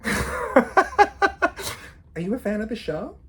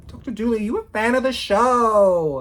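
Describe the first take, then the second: First: High, slow teasing question through a laugh; teasing mock question. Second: Playful call-out. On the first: Student imagines quizzing the lecturer who looked at her, teasing and amused. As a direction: ask it cheekily, drawn out and amused. Jokes she'd ask the lecturer. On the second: Retold or imitated. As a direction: holler it teasingly, stretching the last words. Repeats the joke, calling out.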